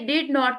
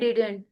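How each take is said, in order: First: It is said as two full words. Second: It is contracted into one syllable pair. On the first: "डिड नॉट की बजाय"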